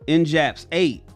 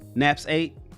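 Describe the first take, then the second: First: The name is said with a J sound. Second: The name is said without a J sound. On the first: "I hope I said that right" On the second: "Is the J silent?"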